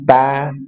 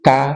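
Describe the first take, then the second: First: The t is released without a breathy puff. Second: The t is released with a breathy puff. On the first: Breath is added only when the letter has no vowel. "kalau kita ta" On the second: Some readers add breath to every vowelled ta. "Ada yang ta"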